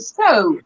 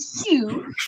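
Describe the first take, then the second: First: The vowel sounds like the one in 'so'. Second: The vowel sounds like the one in 'sue'. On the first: The speaker calls it right. "you say "sew,"" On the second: The speaker calls it wrong. "you don't say "sew,""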